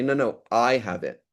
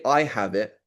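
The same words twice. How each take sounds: First: I lengthened in contradiction; slower, emphatic I; stress on I. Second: Said in the usual way. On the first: Shown as a demonstration. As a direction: correct them by leaning on I. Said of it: "there's intonation". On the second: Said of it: "if I say".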